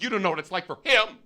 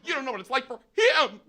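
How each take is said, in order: First: High, fast indignant outburst; retold raised-voice scolding; imitated yelling. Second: Very high, escalated outrage; high mock scream, hitting HIM hard; imitated shrill yelling. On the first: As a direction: rattle off an angry accusation in mock outrage. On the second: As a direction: yell it in a hammed-up furious woman's voice. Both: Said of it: "She kept yelling at me".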